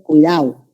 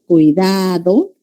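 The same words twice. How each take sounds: First: The d sound is dropped. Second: The d sound is fully pronounced. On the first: "dicen cuidado ... Dejaron de pronunciar la D" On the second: "en lugar de cuidado"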